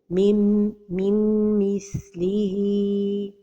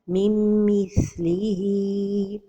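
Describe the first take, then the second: First: A distinct n sound is heard before m. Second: The merged nasal m is clipped short. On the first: "Another mistake is to pronounce it the noon" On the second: "The first mistake is to pronounce it idgham without a time for the ghunna"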